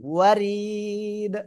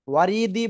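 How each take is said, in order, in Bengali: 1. শেষে একটি সাধারণ ব্যঞ্জনধ্বনি আছে। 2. শেষে একটি যুক্ত স্বরধ্বনি আছে।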